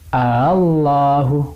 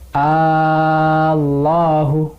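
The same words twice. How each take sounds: First: The second hamza is softened, between hamza and vowel. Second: The second hamza is replaced by a long vowel. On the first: "Kalau dibaca tashil" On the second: "Kalau dibaca ibdal"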